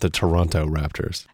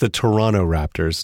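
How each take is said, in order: First: The last T in Toronto is pronounced. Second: The last T in Toronto is dropped. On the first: The speaker sounds like an outsider. The speaker calls it wrong. "not the Toronto Raptors" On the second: The speaker sounds like a local. The speaker calls it right. "So it's the Toronto Raptors"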